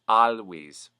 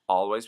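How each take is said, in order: First: The L sounds strongly hyper-articulated. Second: The L sounds plain and light.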